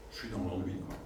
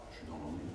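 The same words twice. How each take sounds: First: Said in the usual way. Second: Mock bored. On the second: Trainer acting the bored-out employee, sagging and flat. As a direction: lower and softer, deflated "Je suis dans l'ennui.".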